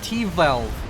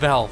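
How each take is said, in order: First: The initial T is sounded before Velv. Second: The initial T is dropped, only Velv.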